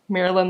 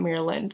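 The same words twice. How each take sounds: First: It sounds like the personal name Marilyn. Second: It sounds like the state name Maryland. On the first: It refers to a person's name. The speaker calls it right. "like Maryland like the person" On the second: It refers to the US state. The speaker calls it wrong. "not Maryland like the state"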